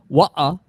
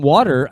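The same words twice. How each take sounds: First: "Wa-uh" in loud Cockney with a dropped T; Cockney accent. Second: Said in the usual way. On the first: Shown as a demonstration. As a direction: say "Wa-uh" Cockney-style, glottal stop for the T. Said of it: "A little bit more Cockney". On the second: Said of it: "I mean, it could be".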